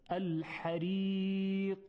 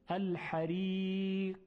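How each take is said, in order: First: The final q ends with a small echoing bounce. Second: The final q stops dead with no bounce. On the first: The speaker calls it right. "اما وقتی قلقله رو بیاریم اینطوری میشه" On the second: The speaker calls it wrong. "اگر این پرش و تکان خوردن و قلقله نباشه اینطوری میشه"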